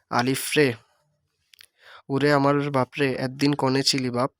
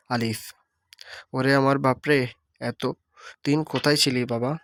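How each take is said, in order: First: A mother crying out for her son; mother calling in dialect. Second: Same mother's cry, standard wording; the mother's call, now in standard Bengali. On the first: Teacher voicing the mother in dialect, calling her lost son. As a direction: call out আলিফ রে like a grieving mother. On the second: Teacher voicing the mother in standard speech, calling her son. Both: Shown as a demonstration. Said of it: "আঞ্চলিক রূপ".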